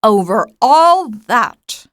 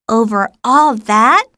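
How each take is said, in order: First: Slow, calm royal assertion; understated majestic king; magnificent simplicity. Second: Astonished question, a rising All; lightly amazed little prince; wondering question. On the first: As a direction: state it grandly and simply. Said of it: "with magnificent simplicity". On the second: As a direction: ask in childlike wonder. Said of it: "asked the little prince". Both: A narrator's reading.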